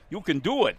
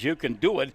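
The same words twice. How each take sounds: First: It is said in a Waterboy movie impression voice. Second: It is read in his plain voice.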